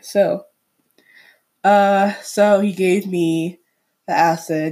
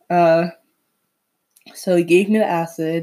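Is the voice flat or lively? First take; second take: lively; flat. First: It is said in a lively, fun voice. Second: It is said in a flat, plain voice. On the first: The speaker calls it right. "let's put on a fun voice" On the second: The speaker calls it wrong. "So this is really boring"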